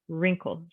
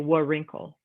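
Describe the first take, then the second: First: The word starts without any W sound. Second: A W sound is pronounced at the start. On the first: The speaker calls it right. "I say wrinkle. So that W kind of gets uh, taken away, it's silent" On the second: The speaker calls it wrong. "I don't say wa wrinkle"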